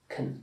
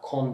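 First: The syllable has a short reduced 'uh' vowel. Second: The syllable has a full rounded 'o' vowel. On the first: The speaker calls it right. "ilki başı kın" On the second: The speaker calls it wrong. "Kon değil"

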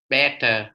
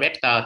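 First: The middle t is pronounced softly and lightly. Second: The middle t is pronounced clearly and strongly. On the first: The speaker calls it right. "Chỗ này đọc better better better" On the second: The speaker calls it wrong. "đọc better better thì không chịu nha"

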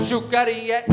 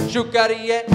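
Both takes have the same delivery.

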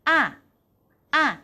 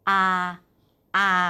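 First: The syllable is said with a falling pitch. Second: The syllable is said on a level pitch. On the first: "เสียงที่4 ... ใกล้เคียงกับเสียงไม้โทในภาษาไทย" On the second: "เสียงที่1 ... ใกล้เคียงกับเสียงสามัญของภาษาไทย"

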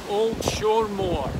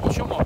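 First: The name is said slowly and fully. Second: The name is said quickly and run together.

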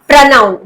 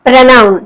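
Both takes have the same delivery.

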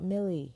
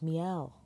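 First: The name sounds like the word 'Millie'. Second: The name sounds like 'Mee-elle'. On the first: The speaker calls it wrong. "I was saying Millie. It's not Millie" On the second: The speaker calls it right. "it's Mielle"

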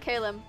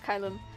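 First: The first vowel is not an 'eye' sound. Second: The first vowel is an 'eye' sound. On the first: The speaker calls it wrong. "it's not Kalum" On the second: The speaker calls it right. "it's Kylum"

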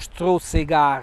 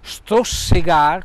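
First: The middle consonant is a Z sound. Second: The middle consonant is an S sound. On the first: "con la Z" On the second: "con doppia S"

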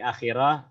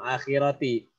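First: The word ends with a final 'h' sound. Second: The word ends with a 'ti' sound. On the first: The reader pauses at this word. "Kalau kita berhenti akhirah" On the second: The reader joins it to the next word. "kita sambung akhirati"

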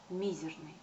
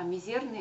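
First: The stress is on the first syllable. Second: The stress is on the second syllable. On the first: The speaker calls it right. "ставить ударение на первый слог, на «и»" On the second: The speaker calls it wrong. "это вне нормы, это неправильно"

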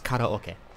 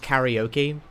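First: The word is given a Japanese-style pronunciation. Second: The word is given an English-style pronunciation. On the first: The speaker calls it right. "but it's karaoke" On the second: The speaker calls it wrong. "in British English, it almost always becomes karaoke"

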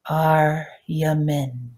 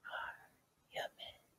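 First: The word is said out loud at full voice. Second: The word is whispered with no voice. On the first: "repeat it with me out loud" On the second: "And now whispering it"

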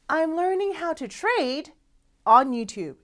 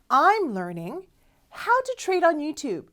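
First: There is a pause right after "trade". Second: It flows on with no pause after "trade". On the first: YouTube is where the trading is being learned. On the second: The trading itself happens on YouTube.

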